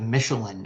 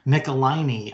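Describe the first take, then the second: First: The name is said with three syllables. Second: The name is said with four syllables.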